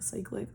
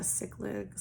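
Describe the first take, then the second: First: "cyclic" said SIKE-lik, very softly; retry "cyclic" with a long i, as in cycle, under your breath; tentative, hushed "cyclic" starting like "psych"; unsure pronunciation. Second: "cyclic" said SICK-lik, very softly; tentative, hushed "cyclic" starting like "sick"; unsure pronunciation. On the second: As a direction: try "cyclic" with a short i, as in sick, under your breath. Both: Real, not acted. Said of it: "not being able to say that word".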